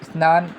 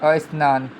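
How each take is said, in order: First: The word starts directly with the consonant cluster. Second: An extra vowel is added before the cluster. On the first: The speaker calls it right. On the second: The speaker calls it wrong.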